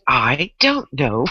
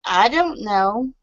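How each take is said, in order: First: Ditzy blonde. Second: Dumb blonde, lower voice; ditzy blonde. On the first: Retold or imitated. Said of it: "that was good". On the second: Shown as a demonstration. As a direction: play the clueless blonde. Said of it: "act like you have blonde roots".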